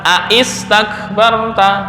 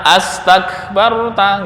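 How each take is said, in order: First: The word starts with 'a' followed by 'i'. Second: The word starts with a single 'a' vowel. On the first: The speaker calls it wrong. "nggak boleh dibaca aistakbarta" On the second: The speaker calls it right. "Maka membacanya adalah astakbarta"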